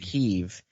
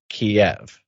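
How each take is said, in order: First: It is said the newer, Ukrainian-style way. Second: It is said the older, Russian-style way. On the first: This is the new Ukrainian way of saying it. "the new Ukrainian way of saying it" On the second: This is the older, Russian way of saying it. "it used to be pronounced Kiev"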